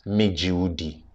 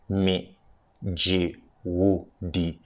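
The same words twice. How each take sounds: First: It is said at normal speed. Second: It is said more slowly.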